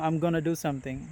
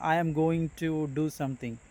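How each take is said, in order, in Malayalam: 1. 'going to' എന്നത് 'gonna' എന്ന് ചുരുക്കിയാണ് പറയുന്നത്. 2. എല്ലാ വാക്കുകളും ചുരുക്കാതെ, പൂർണ്ണമായാണ് പറയുന്നത്. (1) "അമേരിക്കൻ ഇംഗ്ലീഷിൽ വരുമ്പോൾ" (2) "നമ്മൾ കേൾക്കുന്നത്"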